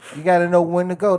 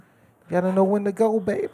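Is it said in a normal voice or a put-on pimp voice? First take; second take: normal; pimp voice. First: It is said in his normal voice. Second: It is said in a put-on pimp voice.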